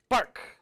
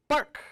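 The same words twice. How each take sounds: First: A sharp barked "Bark!" like a seal. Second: "Bark!" yelped higher and louder like a seal; a sharp high yelp of a seal coming alive. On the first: Telling how the carved seal barked, sharp bark. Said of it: "Like a seal does". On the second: The carved seal finally barks right, high loud yelp. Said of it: "It barked just like a seal". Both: Retold or imitated.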